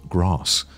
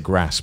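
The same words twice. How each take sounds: First: It is said in a received pronunciation accent. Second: It is said in a non-RP regional English accent. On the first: "received pronunciation, which is the typical accent" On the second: "I say grass"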